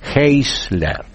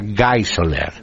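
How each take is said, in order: First: The name is read with Spanish letter sounds. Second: The name is read with German letter sounds. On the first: The speaker calls it wrong. "así se pronunciaría en español" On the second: The speaker calls it right. "pero se pronuncia Geisler"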